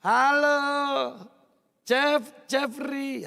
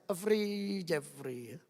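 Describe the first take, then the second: First: Loud friendly "Halo", then "Jeff" before the full "Jeffrey"; Javanese way of calling. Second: "Jeffrey, Jeffrey" said twice, softer, falling away; quiet repeated "Jeffrey", fading; Madurese way of calling. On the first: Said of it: "Ya, orang Jawa itu". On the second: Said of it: "Nek orang Madura ndak bisa". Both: Shown as a demonstration.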